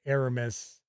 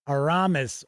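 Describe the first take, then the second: First: Aramis said as AIR-uh-mis; Aramis stressed first syllable. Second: Aramis said as ah-RAH-mis; Aramis stressed second syllable. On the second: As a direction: stress the middle of Aramis, with an "ah" vowel. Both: Shown as a demonstration. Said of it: "depending on how you want to pronounce it".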